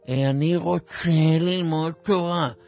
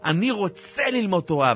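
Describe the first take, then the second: First: It is said weakly, in a listless, drooping voice. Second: It is said strongly, in a lively, eager voice. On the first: The desire is not really felt. The speaker calls it wrong. "אל תגיד לי את זה עם מצב גוף מסכן כזה" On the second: The desire is truly felt. The speaker calls it right. "ואתה כולך עכשיו בהתלהבות"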